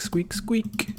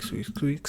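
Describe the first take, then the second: First: "squeak, squeak" voiced in a very high mouse squeal. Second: "squeak, squeak" breathed out as a soft whispered mouse noise. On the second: Retold or imitated. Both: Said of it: "all I can hear is squeak".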